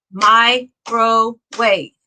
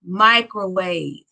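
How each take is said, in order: First: "microwave" slowly in three beats, mi, cro, wave; split into syllables. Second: Said in the usual way. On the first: Shown as a demonstration. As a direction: clap out "microwave" with a pause after mi and after cro. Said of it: "Three claps in that word". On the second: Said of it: "It is microwave".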